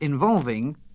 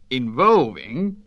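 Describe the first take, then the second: First: It is said in an ordinary accent. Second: It is said the way Heath speaks.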